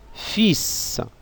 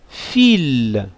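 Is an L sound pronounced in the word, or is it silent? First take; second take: silent; pronounced. First: The word ends with an S sound, no L. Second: The word ends with an L sound, no S.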